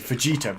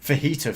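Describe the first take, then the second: First: The J is pronounced as a hard J. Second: The J is silent, sounding like an H. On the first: "I like to say fajita because it sounds funnier" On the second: "has a silent J"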